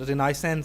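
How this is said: It is said with an American pronunciation. "That is the American accent"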